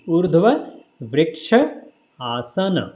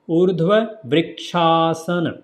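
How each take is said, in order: First: Each part is said separately with pauses. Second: The parts are run together smoothly. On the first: "If you say separately"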